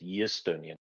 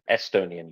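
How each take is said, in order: First: It begins with a y sound. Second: It begins with a plain vowel sound. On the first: This is how Russian speakers say it. "So they put a y in it" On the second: This is the word without the Russian change. "the eh with a glottal stop you get from beginning a word with a vowel"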